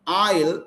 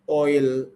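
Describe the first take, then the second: First: The vowel sounds like 'ar' as in car. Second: The vowel sounds like 'or' as in door. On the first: The speaker calls it wrong. "So it is not oil" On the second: The speaker calls it right. "it is oil"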